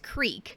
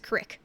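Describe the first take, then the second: First: The vowel is a long ee sound. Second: The vowel is a short i sound. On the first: This is how people in the east of the state say it. "you go to the east side of Pennsylvania and everything's creek" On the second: This is how people in the west of the state say it. "You go to the west side of Pennsylvania, everybody says crick"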